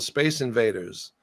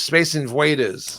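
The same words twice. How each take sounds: First: Said in the usual way. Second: Put-on Austrian accent. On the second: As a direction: Space Invaders drawn out slowly in an Austrian accent. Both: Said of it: "but with the Austrian accent".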